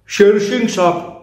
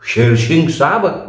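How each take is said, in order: First: It is said as a plain statement. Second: It is asked in surprise, stressing Saheb.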